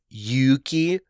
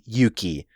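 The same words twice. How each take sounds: First: The first vowel is held long. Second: The first vowel is kept short. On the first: It is a boy's name meaning courage. "the first syllable is like longer because it has an extra vowel" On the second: It is a girl's name. "like it's shorter"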